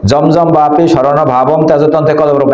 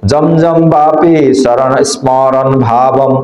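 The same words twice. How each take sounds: First: Verse run straight on without a break; run together. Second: Slow, drawn-out verse with a stop at the end; deliberate teacher's model reading; measured recitation. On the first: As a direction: rattle off "জমজম বাপি শরণ ভাবম তেজতন্ত্রে কলবরম" as one unit. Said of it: "অনেকে এইভাবে পড়ে". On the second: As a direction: stretch "জমজম বাপি শরণ স্মরণ ভাবম" out slowly. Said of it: "তাহলে কিভাবে পড়তে হবে". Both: Shown as a demonstration.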